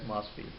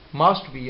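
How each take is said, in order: First: The t sound is left out. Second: The t sound is clearly pronounced.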